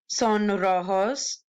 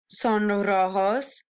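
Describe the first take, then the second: The two takes are said the same way.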